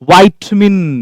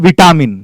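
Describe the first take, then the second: First: The first syllable sounds like 'vie'. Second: The first syllable sounds like 'vee'. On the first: The speaker calls it right. "वाइटमिन बोलते हैं" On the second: The speaker calls it wrong. "विटामिन की capsule नहीं लेना है"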